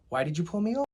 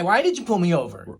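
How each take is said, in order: First: It is asked in a calm, polite tone. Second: It is asked in a rude, confrontational tone. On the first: The driver is asking respectfully. The speaker calls it right. "you want to be polite. You want to be nice about it" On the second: The driver is challenging the officer. The speaker calls it wrong. "Don't be like that"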